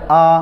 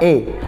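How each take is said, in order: First: The vowel sounds thick and dark. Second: The vowel sounds close to an e. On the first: "Dia akan tebal. ... hanya terbuka" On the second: "menyerupai harokat e"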